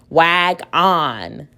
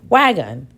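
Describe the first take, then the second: First: The second syllable has a full 'on' vowel. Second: The second syllable has a reduced schwa vowel. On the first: The speaker calls it wrong. "That sounds kind of silly" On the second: The speaker calls it right. "we can use the schwa sound and try again"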